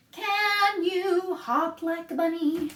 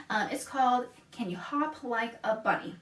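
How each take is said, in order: First: Put-on sung slow and higher, children's song. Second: Said in the usual way. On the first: Shown as a demonstration. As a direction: sing the opening line to the kids. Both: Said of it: "So, it goes like this".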